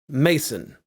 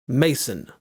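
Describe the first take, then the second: Both takes have the same delivery.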